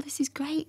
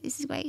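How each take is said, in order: First: Plain excited. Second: High, soft, near-whispered "This is great."; softer repeat. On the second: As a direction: say "This is great." again softly, almost to herself. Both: Retold or imitated. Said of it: "I remember he was like".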